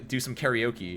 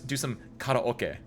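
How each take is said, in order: First: Karaoke is said the plain everyday English way. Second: Karaoke is said in an exaggerated, fancy way. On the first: "Instead of being" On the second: "If I was like"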